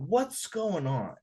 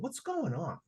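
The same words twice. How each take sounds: First: Slow, higher, drawn-out concerned question; deliberate, sincere check-in. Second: Soft, higher concerned question; quick, softened check-in; sincere question. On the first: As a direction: ask slowly and earnestly what's wrong. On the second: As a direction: ask gently, out of concern. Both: Retold or imitated. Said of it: "Sincerely, I said".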